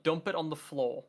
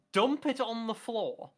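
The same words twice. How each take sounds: First: Said in the usual way. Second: High, drawn-out incredulous question; baffled disbelief. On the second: Real, not acted. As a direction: stretch it out, pitched up in disbelief. Baffled repeat of the wording.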